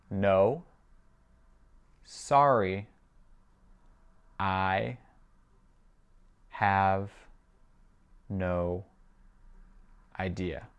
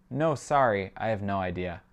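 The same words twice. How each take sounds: First: Very slow, each word on its own; spaced-out language-drill reading. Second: Said in the usual way. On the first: Shown as a demonstration. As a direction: leave a long gap after every word. Teacher repeats it word by word.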